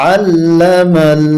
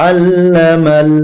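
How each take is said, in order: Both takes have the same delivery.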